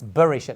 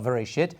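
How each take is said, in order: First: The word begins with a b sound. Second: The word begins with a v sound. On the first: The speaker calls it right. "There's actually a dot. It's Bereshit" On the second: The speaker calls it wrong. "not Vereshit"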